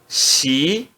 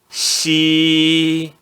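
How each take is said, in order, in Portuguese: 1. A sílaba é pronunciada no segundo tom. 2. A sílaba é pronunciada no primeiro tom. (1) "No segundo tom" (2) "X mais i no primeiro tom"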